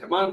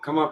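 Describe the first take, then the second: First: The final n is fully pronounced. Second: The final n is only a nasal vowel. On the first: It breaks the meter of the verse. The speaker calls it wrong. "कमान बोलने से रिश्ता टूट जाएगा" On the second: It keeps the meter of the verse. The speaker calls it right. "कमा कमा कमा पढ़ना है"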